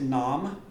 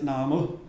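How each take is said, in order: First: The word ends on the m sound. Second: A short vowel follows the final m. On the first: The vowel marks are ignored. "they ignore all the almost all the Laga" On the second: The vowel marks are pronounced. "I said no, we always pronounce it Namu"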